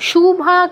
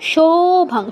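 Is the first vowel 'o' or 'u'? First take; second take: u; o. First: The first vowel is an 'u' sound. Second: The first vowel is an 'o' sound. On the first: The speaker calls it wrong. "শুভা কিন্তু নয়, উকার নয়" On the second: The speaker calls it right. "আবারও বলছি ওকার"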